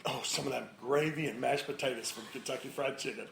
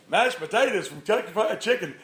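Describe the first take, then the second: First: Slightly low, offhand food craving; casual code word. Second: Higher, puzzled-sounding echo of the phrase; clueless bystander. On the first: Spouse covering with the code word, casual and understated. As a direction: slip it in innocently, understated. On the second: Other people around overhearing the code word, clueless higher-pitched echo. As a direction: echo it as an oblivious onlooker. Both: Retold or imitated.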